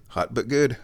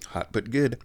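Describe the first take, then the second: First: Said in the usual way. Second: Mouth full of hot tea. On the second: Real, not acted.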